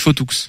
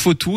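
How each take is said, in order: First: The final letter of the name is pronounced. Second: The final letter of the name is silent. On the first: This is how it is said in the other region. "chez vous on prononce beaucoup les lettres muettes" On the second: This is how it is said locally here. "Ici on dit plutôt Fautou"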